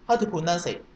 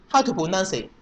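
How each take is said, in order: Both takes have the same delivery.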